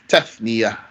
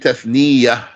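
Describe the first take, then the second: First: The ya sound is single and short. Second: The ya sound is doubled and held longer. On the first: The speaker calls it right. "There's no shadda on this ya" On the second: The speaker calls it wrong. "don't say"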